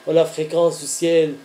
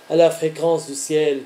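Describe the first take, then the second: No difference in how they are said.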